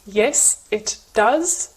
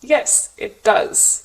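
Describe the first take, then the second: First: Yes, it does word by word, T and D apart; separate consonants. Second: Yes, it does with T melting into D; merged consonants. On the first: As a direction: keep "it" and "does" separate, both consonants sounded. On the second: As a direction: link "it does" on one consonant. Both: Shown as a demonstration.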